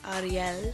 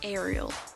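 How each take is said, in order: First: The name is said with a Norwegian pronunciation. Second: The name is said with an Australian pronunciation. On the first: This is how the owner of the name says it. "she says it Ariel or something like that because she's from Norway" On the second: This is how people in Australia would say it. "in Australia we'd pronounce it Ariel"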